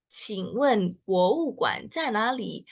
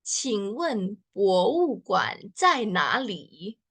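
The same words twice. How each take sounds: First: Said in the usual way. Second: Slow demo. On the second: Shown as a demonstration. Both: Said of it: "gimana cara bacanya?".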